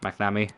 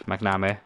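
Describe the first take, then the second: First: McNamee ending in an "ee" sound; second guess at McNamee, final vowel "ee"; alternative pronunciation. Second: McNamee ending in an "eh" or "may" sound; first guess at McNamee, final vowel open; pronunciation attempt. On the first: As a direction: say McNamee as Mac-na-mee. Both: Shown as a demonstration. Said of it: "however you wanna say it".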